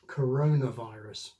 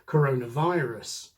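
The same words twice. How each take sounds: First: The main stress falls on corona. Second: The main stress falls on virus. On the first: "the normal compound stress" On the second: "with the stress on the second word"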